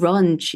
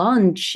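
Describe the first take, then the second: First: The word starts with an R-like sound. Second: The word starts with a clear L sound. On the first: The speaker calls it wrong. "lunch 이렇게 자꾸 읽는 분들은" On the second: The speaker calls it right. "lunch 이건데"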